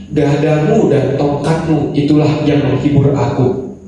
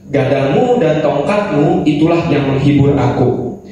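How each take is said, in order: No difference in how they are said.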